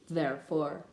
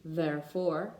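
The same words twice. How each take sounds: First: "therefore" said again with a clear th; teacher repeating "therefore"; therefore repeated. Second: Teacher modeling "therefore"; therefore demo. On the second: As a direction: model the word "therefore" for students. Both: Shown as a demonstration. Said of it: "such as".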